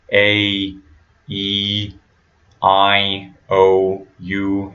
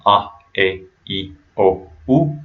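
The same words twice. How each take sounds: First: "A, E, I, O, U" as English letter names, one by one; spaced-out English "A, E, I, O, U" with diphthongs; American English diphthongs. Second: "a, e, i, o, u" as ah, eh, ee, oh, oo; short vowels with no glide in "a, e, i, o, u"; Spanish "a, e, i, o, u", each a single clean sound; pure Spanish vowels. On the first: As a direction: glide each vowel: ay, ee, eye, oh, you. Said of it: "not using these diphthongs". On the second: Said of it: "just making sure you're using". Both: Shown as a demonstration.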